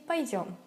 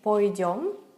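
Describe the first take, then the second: First: The first vowel is reduced to an a sound. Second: The first vowel is a full o sound. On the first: This is the usual standard way to say it. The speaker calls it right. "we would say пойдем" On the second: This is how some village speakers say it. The speaker calls it wrong. "we wouldn't say пойдем. Maybe some people from the village would say that"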